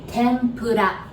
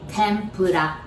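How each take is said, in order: First: It is said with a Japanese accent. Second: The same.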